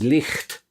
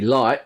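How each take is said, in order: First: A throaty 'ch' sound comes before the final t. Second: The word ends in a glottal stop, not t. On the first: "in Scotland it might come out as licht, where the G H actually is pronounced" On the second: "in southern England it's going to be light with no T there at all"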